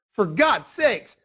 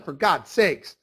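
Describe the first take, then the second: First: "For God's sakes" stretched slowly with a rise on "God's"; drawn-out exasperation. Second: Said in the usual way. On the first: Real, not acted. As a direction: drag out "God's" in disbelief. Repeated exclamation, second emphatic take.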